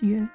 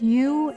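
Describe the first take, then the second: First: The vowel is quick and short. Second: The vowel is drawn out longer. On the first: "It's quicker, shorter" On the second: "is a bit longer"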